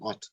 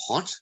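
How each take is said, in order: First: The word begins without an H sound. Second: The word begins with an H sound. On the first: "they will be saying ot" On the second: "instead of hot"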